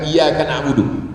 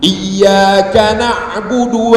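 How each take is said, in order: First: The y sound is short and single. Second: The y sound is held and doubled. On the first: The speaker calls it wrong. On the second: The speaker calls it right. "Iyanya mesti pakai tasydid"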